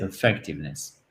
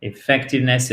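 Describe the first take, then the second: First: "effectiveness" starting on a reduced uh; opening schwa. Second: "Effectiveness" starting on a clear French é; opening é sound. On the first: Teacher contrasting two versions for learners, uh starting "effectiveness". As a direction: open "effectiveness" with uh, then stress FEC. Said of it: "c'est plus comme un E accent aigu". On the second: Teacher contrasting two versions for learners, é starting "Effectiveness". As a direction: open "Effectiveness" with é, then stress FEC. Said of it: "Vous entendez la différence?". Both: Shown as a demonstration.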